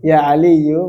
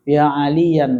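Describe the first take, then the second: First: The name ends with a plain -u vowel. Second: The name ends with a nasal -an sound. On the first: The speaker calls it right. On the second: The speaker calls it wrong. "betul nggak itu?"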